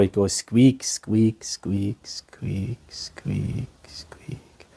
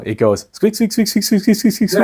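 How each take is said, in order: First: The squeaks are said slowly. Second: The squeaks are said fast.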